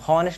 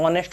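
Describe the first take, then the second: First: The word begins with an h sound. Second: The word begins directly with a vowel. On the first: The speaker calls it wrong. "हॉनेस्ट नहीं होता है" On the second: The speaker calls it right. "एच silent रहता है, ऑनेस्ट होता है"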